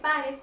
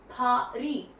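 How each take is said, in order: First: Paris is said with an English pronunciation. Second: Paris is said with a French pronunciation. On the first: "usually we use Paris, we will call it Paris" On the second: "the people there use an accent and call this Paris"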